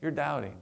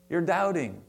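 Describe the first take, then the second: First: A softer take of You're doubting; a hushed, kindly reproach; softer gentle chiding. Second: Said in the usual way. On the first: Shown as a demonstration. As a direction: let it fall quietly, no harshness. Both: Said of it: "I don't think he said it in a harsh tone".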